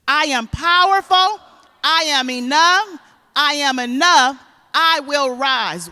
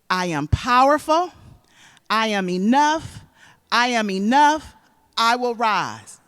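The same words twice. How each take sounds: First: It is said forcefully with high energy. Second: It is said calmly with low energy.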